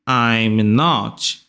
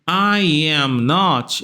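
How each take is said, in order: First: I and am are merged into one syllable. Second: The phrase is said as three separate words. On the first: "Fiz uma contração aqui do I com am" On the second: "ao invés de dizer I am not"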